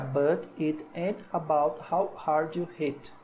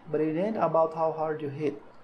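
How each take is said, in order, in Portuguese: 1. É devagar, com pausas entre as palavras. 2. É rápido, com as palavras juntas. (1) "Se você for falar pausando, vai ficar" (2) "Ele fala ... Fala juntando mesmo nas palavras"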